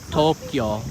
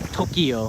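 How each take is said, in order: First: The word is said with two syllables. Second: The word is said with three syllables. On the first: The speaker calls it right. "which is actually Tokyo, two syllables" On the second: The speaker calls it wrong. "Those same people are saying Tokyo"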